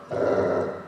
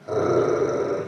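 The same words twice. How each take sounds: First: "Arr" rolled at the back of the throat; voiceless uvular trill on "Arr". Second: "Arr" trilled with the tip of the tongue; tongue-tip tapping on "Arr"; tapped R. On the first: Teacher showing students "Arr" as a throaty uvular R. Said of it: "that's a uvular R". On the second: Teacher showing students "Arr" with the tongue tip. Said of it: "That's the tip of your tongue". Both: Shown as a demonstration.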